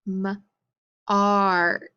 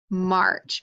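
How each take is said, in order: First: M-arch sounded out slowly, sound by sound; segmenting M-arch for kids; stretched sound-out. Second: Said in the usual way. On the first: Shown as a demonstration. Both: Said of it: "What do I have now?".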